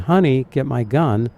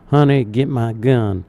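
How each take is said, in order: First: It is said at a higher pitch. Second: It is said at a low, deep pitch. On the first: "which is a higher pitch" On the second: "rather than the low"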